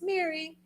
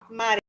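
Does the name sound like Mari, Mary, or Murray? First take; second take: Mary; Mari. First: The name sounds like 'Mary', with an 'air' vowel. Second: The name sounds like 'Mari', with an 'ah' vowel. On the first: "it's Mary"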